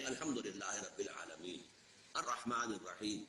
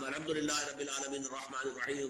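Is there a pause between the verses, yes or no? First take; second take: yes; no. First: The verses are read with a pause between them. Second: The verses are read together without a pause.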